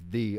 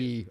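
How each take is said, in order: First: The word begins with a th sound. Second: The word begins with a y sound. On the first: The speaker calls it right. "Is the way it's pronounced" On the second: The speaker calls it wrong. "It's not"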